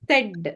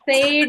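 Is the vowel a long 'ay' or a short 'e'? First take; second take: short e; long ay. First: The vowel is a short 'e' sound. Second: The vowel is a long 'ay' sound. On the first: The speaker calls it right. "ಇದು ಎ sound ಬರ್ತದೆ" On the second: The speaker calls it wrong. "ಸೇಡ್ ಅಲ್ಲ"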